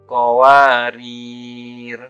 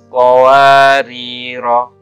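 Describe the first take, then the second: First: The word ends on a bare r consonant. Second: The final r is followed by a long vowel. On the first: "maka huruf ro dibaca sukun" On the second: "huruf ro dibaca panjang satu alif"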